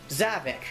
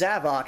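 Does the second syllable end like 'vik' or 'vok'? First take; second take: vik; vok. First: The second syllable has a short 'ih' vowel. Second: The second syllable has an open 'ah' vowel. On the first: The speaker calls it wrong. "I thought it was Zavik" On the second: The speaker calls it right. "no, it's Zavok"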